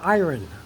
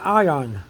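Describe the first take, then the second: First: The word is said with an r sound. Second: The word is said without an r sound. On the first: The speaker calls it wrong. "I used to pronounce it iron" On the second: The speaker calls it right. "but it's really ion"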